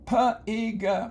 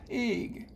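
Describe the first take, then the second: First: The first sound is split off from the rest. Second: The first sound blends smoothly into the rest. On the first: The speaker calls it wrong. "you don't say p-ig" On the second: The speaker calls it right. "You say pig"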